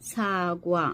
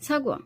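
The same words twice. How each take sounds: First: সাগুয়া drawn out into slow separate syllables. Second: সাগুয়া clipped quick and whole, in one breath. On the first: Teacher drills the Korean word সাগুয়া slowly. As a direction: spell out সাগুয়া one syllable at a time. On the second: Teacher shows the natural quick সাগুয়া in one go. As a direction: snap সাগুয়া out as one word. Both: Shown as a demonstration. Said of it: "ঠিক এইভাবে বলতে হবে".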